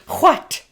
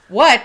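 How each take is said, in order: First: It begins with a breathy, hacking sound. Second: It begins with a plain W sound. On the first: The speaker calls it right. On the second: The speaker calls it wrong.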